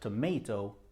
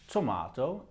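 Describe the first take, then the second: First: It is said in an American accent. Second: It is said in a British accent. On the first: "is American" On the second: "is British"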